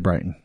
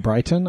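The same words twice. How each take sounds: First: The middle t sound is dropped or swallowed. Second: The middle t sound is clearly pronounced. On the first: "I say Brighton because I'm in Utah" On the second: "I don't usually say Brighton"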